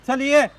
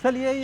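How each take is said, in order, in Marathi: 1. हे मोठ्या, कठोर स्वरात म्हटलं आहे. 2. हे मऊ, सौम्य स्वरात म्हटलं आहे. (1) "शब्द तोच आहे" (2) "ये म्हटल्यानंतर तो जवळ येतो प्राणी"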